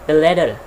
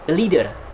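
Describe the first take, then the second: First: The first vowel is short, like in 'lid'. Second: The first vowel is long, like in 'lead'. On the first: The speaker calls it wrong. "We cannot say lid" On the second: The speaker calls it right. "the correct one is"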